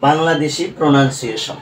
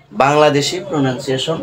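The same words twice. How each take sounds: The two takes are said the same way.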